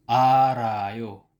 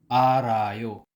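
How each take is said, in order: No difference in how they are said.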